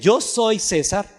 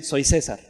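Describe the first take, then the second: First: "yo" stressed, slow, set apart; forbidden form. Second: Said in the usual way. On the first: Shown as a demonstration. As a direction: lean on "yo" in "yo soy César". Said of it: "No dicen". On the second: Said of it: "sino dicen".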